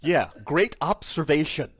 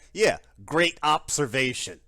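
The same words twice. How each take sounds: First: The words are pronounced in a relaxed, natural way. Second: Every sound is pronounced very crisply and deliberately.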